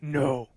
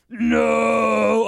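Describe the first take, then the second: First: Low, restrained villain's no; understated deep mock no; Darth Vader. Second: Loud, high drawn-out bellow; hammed-up villain's howl of no; Darth Vader. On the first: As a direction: say it low, as a bad movie impression. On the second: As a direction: shout it long in mock anguish. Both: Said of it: "you do a bad impression".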